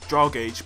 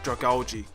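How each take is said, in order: First: The ending does not sound like 'algae'. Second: The ending sounds like the word 'algae'. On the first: Other people say it this way. The speaker calls it wrong. "I've heard people say Dragage" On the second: The speaker believes this is the correct form. The speaker calls it right. "I think it's Dragalge. You know, like algae"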